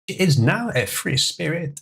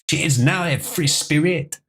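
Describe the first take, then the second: First: It is said in a specific character's accent. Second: It is said in a generic French accent. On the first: "am I losing the ability to do the J F voice?" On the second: "that's more of a generic French accent"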